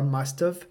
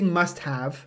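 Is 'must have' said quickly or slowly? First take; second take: quickly; slowly. First: It is said quickly, the words run together. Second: It is said slowly, each word clear. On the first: "o nativo vai falar must have" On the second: "pode falar mais devagar"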